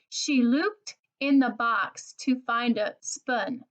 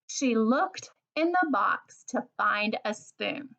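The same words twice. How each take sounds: First: The vowel in looked sounds like spoon. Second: The vowel in looked sounds like book. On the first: The speaker calls it wrong. "if you had read it and you had made the wrong oo sound" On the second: The speaker calls it right. "read the sentence in a way that makes sense"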